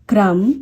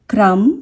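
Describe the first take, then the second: No difference in how they are said.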